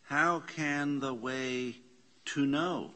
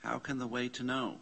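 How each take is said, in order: First: Slow question. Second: Fast, even read-through of the question; quick question. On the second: Teacher rereads the question fast for the class. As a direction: rattle off How can the way to know. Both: Shown as a demonstration. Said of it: "Question mark".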